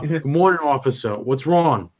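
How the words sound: It is said in a New Jersey accent.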